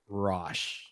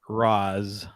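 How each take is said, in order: First: It has an 'o' vowel and ends in sh. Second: It ends in a z sound. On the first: "it's also been pronounced Rosh" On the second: "I tend to say Raz Al Ghul"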